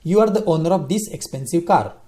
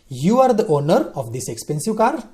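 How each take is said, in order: First: It is said as a plain statement. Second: It is said as a question.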